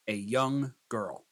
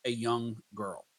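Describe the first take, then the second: First: Slow prompt dictation. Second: Said in the usual way. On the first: Shown as a demonstration. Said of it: "start with a simple prompt".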